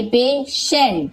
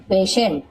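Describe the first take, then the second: First: पेशेंट stretched slowly as "pay ... shent"; syllable by syllable. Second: Said in the usual way. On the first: Shown as a demonstration. Teacher sounding out an example, पेशेंट slowly broken up. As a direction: draw out पेशेंट in two parts. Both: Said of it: "इसे हम इस प्रकार से सेंट".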